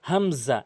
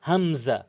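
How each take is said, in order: No difference in how they are said.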